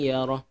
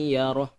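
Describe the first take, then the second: No difference in how they are said.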